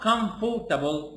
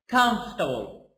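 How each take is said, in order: First: Every syllable is said fully, with all its vowels. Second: The middle vowels are dropped, said quickly in one go. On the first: The speaker calls it wrong. "Not comfortable. No, no" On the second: The speaker calls it right. "So I pronounce it like this. ... One shot"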